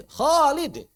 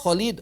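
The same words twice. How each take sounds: First: "Khalid" with a long "Khaa"; high, stretched first vowel in "Khalid"; proper mad. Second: "Khalid" with a short first vowel; mock the clipped "Kha" in "Khalid"; "Khalid" without lengthening the a; missing mad. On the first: Shown as a demonstration. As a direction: hold the a of "Khalid", then short "lid". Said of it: "Kok Khalid?". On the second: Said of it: "madnya nggak diperhatikan".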